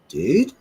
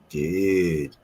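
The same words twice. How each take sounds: First: It is said in an alarmed, warning tone. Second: It is said in a suggestive, inviting tone. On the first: There is danger right behind the listener. "if someone's in the in uh, behind the car with an axe, you're like" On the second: The speaker wants to go smoke together. "Or if you want to go smoke a joint"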